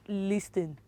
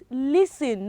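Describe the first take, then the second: First: The T sound is pronounced. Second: The T sound is silent. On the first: The speaker calls it wrong. "not listen" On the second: The speaker calls it right. "the T is what is silent"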